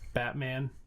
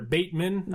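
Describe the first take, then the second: First: The first syllable sounds like 'bat'. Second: The first syllable sounds like 'bait'. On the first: The speaker calls it wrong. "I always want to call him Batman" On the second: The speaker calls it right. "but they're Bateman, I believe, is the pronunciation for him"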